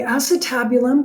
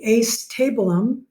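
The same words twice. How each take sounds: First: It is said with its standard pronunciation. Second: It is said the way it is spelled. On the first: "that's how you pronounce it" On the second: "deliberately pronounce this the acetabulum, just so that you can remember to spell it right"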